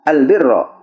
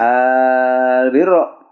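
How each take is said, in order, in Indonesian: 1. Vokal pembuka dibaca pendek. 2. Vokal pembuka dibaca panjang. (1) "atau tanpa mad albirra" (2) "jadi panjangnya albirra"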